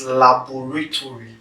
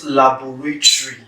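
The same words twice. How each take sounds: First: "laboratory" ending in a full "to-ry"; correct, all syllables. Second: "laboratory" ending in "tree", the o swallowed; wrong, syllable dropped. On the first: Teacher correcting the mistake, "laboratory" with every syllable sounded. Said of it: "it's laboratory". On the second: Teacher showing the mistake, "laboratory" with a syllable dropped. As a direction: run "tory" together as "tree" in "laboratory". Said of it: "It's not laboratory". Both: Shown as a demonstration.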